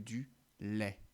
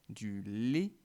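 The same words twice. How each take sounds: First: The final vowel is an open e sound. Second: The final vowel is a closed e sound. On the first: The speaker calls it right. "le prononcer comme est comme dans flèche" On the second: The speaker calls it wrong. "il m'arrive souvent de dire du lait plutôt que"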